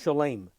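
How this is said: The last vowel sounds like an A. "he would pronounce the O as if it were A"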